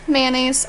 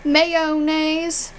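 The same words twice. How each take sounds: First: MAYONNAISE shortened to "man-naze"; two-syllable MAYONNAISE; own pronunciation. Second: MAYONNAISE in three syllables, "may-o-naze"; every syllable of MAYONNAISE sounded; full pronunciation. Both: Shown as a demonstration. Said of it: "I say mayonnaise".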